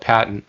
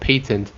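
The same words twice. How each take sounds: First: It is said the American way. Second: It is said the British way.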